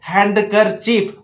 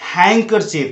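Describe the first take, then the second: First: The d sound is pronounced in the word. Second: The d sound is left out of the word. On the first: The speaker calls it wrong. "गलती से आप अभी तक पढ़ रहे थे हैंडकरचीफ" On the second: The speaker calls it right. "हैंडकरचीफ नहीं होता है हैंकरचीफ, क्योंकि डी का तो उच्चारण है ही नहीं"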